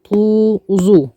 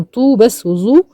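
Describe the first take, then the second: First: طو وظو with long oo on each; madd with waw. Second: طو and ظو with short, unstretched u; short damma only. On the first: Teacher confirming madd with waw, long طو وظو. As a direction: draw out both vowels of طو وظو. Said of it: "مد بالواو ومد بالواو". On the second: Teacher contrasting damma with madd, short طو and ظو. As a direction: cut the vowels of طو and ظو short. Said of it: "مضمومة بس". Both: Shown as a demonstration.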